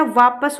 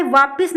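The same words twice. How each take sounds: First: Said in the usual way. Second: वापिस with short i in the second syllable; wrong pronunciation. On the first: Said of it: "वापस होता है". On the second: Shown as a demonstration. Teacher shows the common wrong form, said "vaapis". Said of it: "वापिस नहीं होता".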